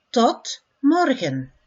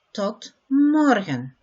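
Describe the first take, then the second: First: Said in the usual way. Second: "Tot morgen" a bit slower, stress on "morgen", falling; carefully repeated "Tot morgen"; slower model. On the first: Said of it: "first take". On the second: Shown as a demonstration. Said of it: "slower repeat".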